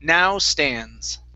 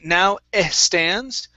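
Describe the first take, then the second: First: The words run on with no hesitation sound. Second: A hesitation sound comes before 'stands'. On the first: The speaker calls it right. "let's take off the eh" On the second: The speaker calls it wrong. "instead of saying now eh stands"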